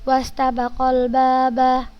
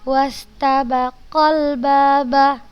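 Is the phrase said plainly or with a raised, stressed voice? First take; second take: plainly; raised. First: It is said plainly without raised emphasis. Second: It is said with a raised, stressed voice. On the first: The meaning is changed to one person. The speaker calls it wrong. "ini yang salah ya" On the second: The meaning of two people is kept. The speaker calls it right. "Kita tinggikan, kita tekankan"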